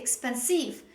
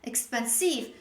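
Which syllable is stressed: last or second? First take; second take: last; last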